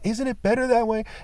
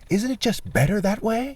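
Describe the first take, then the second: First: It is said in a plain voice. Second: It is said in a mocking put-on voice.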